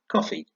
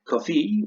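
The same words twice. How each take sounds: First: The stress is on the first syllable. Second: The stress is on the second syllable. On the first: The speaker calls it right. "stressed on the first syllable" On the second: The speaker calls it wrong. "don't drink coffee"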